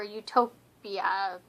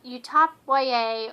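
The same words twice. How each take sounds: First: "Utopia" as "you-TOPE-ee-uh"; read as one word. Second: "Utop Y A" as "YOU-top why-ay"; spelled-out ending. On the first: Vlogger offering ways to say the convention name, read as a word. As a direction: say "Utopia" like the ordinary word, long o. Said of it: "depending on how you wanna say it". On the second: Vlogger offering ways to say the convention name, letters spelled out. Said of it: "I guess you could say". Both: Shown as a demonstration.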